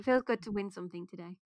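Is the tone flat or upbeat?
flat. It is said in a flat, defeatist tone.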